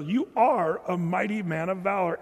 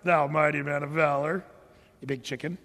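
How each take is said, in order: First: Plain, earnest praise; mean every word; truthful encouragement; sincere. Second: Lower, mocking the title; sarcastic jab at a coward. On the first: Pretend. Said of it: "Or was he saying it truthfully?". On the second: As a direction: sneer it as a put-down. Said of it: "did he say it with sarcasm?".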